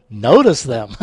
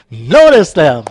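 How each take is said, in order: First: Said in the usual way. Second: Loud, punched repeat of NOTICE THEM; raised voice, playful insistence; mock yell. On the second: Shown as a demonstration. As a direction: bellow "Notice them" for comic emphasis.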